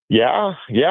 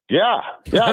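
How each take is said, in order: First: It sounds flat and dismissive. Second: It sounds emphatic and sincere. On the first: The speaker doubts the team. The speaker calls it wrong. "I know that didn't sound very. ... I didn't mean to be disrespectful the way I did that" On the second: The speaker believes the team can do it. The speaker calls it right. "let me try that again. ... is that better? ... I want to emphasize the second, yeah"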